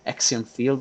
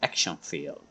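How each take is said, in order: First: The first word is said like 'axion'. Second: The first word is said like 'action'. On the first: The speaker calls it wrong. "I really hope he's going to tell me how to pronounce this" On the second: The speaker calls it right. "it's pronounced uh, Action"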